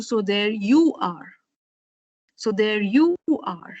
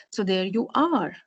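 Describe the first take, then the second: First: "you" drawn out and falling; YOU as the key word; stress on YOU. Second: "are" lengthened, then falling; softer phrase with the accent on "are"; stress on ARE. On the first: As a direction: move the weight onto YOU. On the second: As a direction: save the weight for ARE. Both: Shown as a demonstration. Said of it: "shift the nucleus of your".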